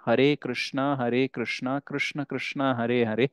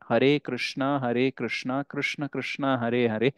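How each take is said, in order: First: Hare is said with an r sound. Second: The same.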